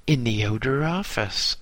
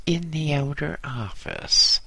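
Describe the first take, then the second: First: Innocent. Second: Raised pitch, innocent retelling; higher retold reply. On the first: A narrator's reading. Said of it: "I replied innocently". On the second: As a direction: echo your innocent answer higher. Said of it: "and he says".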